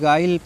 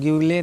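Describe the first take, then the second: First: The u is silent, giving a guy sound. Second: The u is pronounced as a yoo sound. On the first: The speaker calls it right. "गाइल पढ़ना है" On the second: The speaker calls it wrong. "इसको ग्यूले नहीं"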